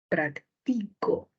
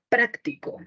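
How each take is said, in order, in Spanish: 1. La sílaba tónica es la segunda. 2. La sílaba tónica es la primera. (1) "puedo mover la sílaba tónica" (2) "puedo mover la sílaba tónica"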